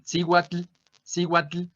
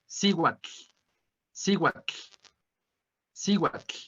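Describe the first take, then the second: First: Cihuatl with a hard g-like w and a sounded L; wrong Spanish-style cihuatl. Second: Cihuatl ending in a breathy tl, air escaping at the sides; cihuatl, final L barely voiced and airy; Nahuatl tl in cihuatl. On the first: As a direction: read cihuatl like a Spanish speaker, L pronounced. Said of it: "no es la pronunciación del náhuatl". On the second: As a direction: let the air slip out past the tongue at the end of cihuatl. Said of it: "como si el aire se nos saliera". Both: Shown as a demonstration.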